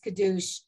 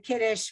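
First: The word is said with the Hebrew pronunciation. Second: The word is said with the Yiddish pronunciation. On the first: This is the form used when reading the text. "versus Kiddush" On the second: This is the everyday spoken form. "we use the Yiddish for Kiddush"

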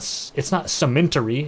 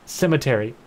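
First: The word has an 'n' sound before the 't'. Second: The word has no 'n' sound before the 't'. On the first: The speaker calls it wrong. "It's not cementery" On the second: The speaker calls it right. "That's how you say it"

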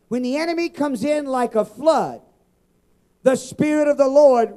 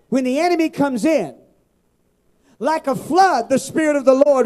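First: The pause comes after the word flood. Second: The pause comes after the words comes in. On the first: The enemy arrives like a flood. "we've always read it this way" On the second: The Spirit of the Lord comes like a flood. "But I like it this way"

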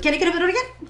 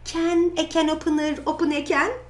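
First: It is said fast. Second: It is said slowly.

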